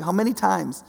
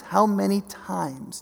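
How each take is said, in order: First: Said in the usual way. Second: "How many times?" drawn out slowly, each word weighed; slow it right down, "How many times?"; slow, weighty repeat. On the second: Shown as a demonstration. Preacher repeating Jesus' lament, slow and weighty. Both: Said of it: "It literally says".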